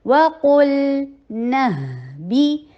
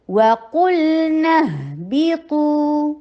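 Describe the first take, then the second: First: وَقُلْنَا slow, ل held a medium beat, lips round on قُ; medium hold on lam. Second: وَقُلْنَا اهْبِطُوا slow and chanted; sung, recited verse. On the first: (وَقُلْنَا میں لام پر توسط) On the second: (sung, تلاوت کے انداز میں آہستہ) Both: Shown as a demonstration. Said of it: "لام کے اوپر توسط کا ٹائم دیجیے".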